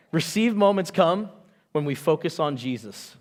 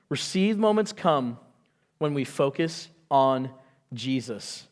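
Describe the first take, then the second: First: Said in the usual way. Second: Slower, each word weighted, fading low on Jesus; slow emphatic repeat. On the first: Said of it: "first statement of point". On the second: Shown as a demonstration. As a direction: lean on it slowly the second time. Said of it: "repeats point slowly for emphasis".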